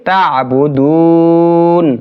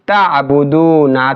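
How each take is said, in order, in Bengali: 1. শব্দটি একটি ব্যঞ্জনধ্বনি দিয়ে শেষ হয়, স্বরধ্বনিটি লোপ পায়। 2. শব্দটি একটি শেষ স্বরধ্বনি দিয়ে শেষ হয়।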